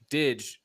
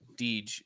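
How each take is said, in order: First: The vowel is short, as in pig. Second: The vowel is long, as in see. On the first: The speaker calls it right. "Didge rhymes with pig" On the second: The speaker calls it wrong. "not Deej"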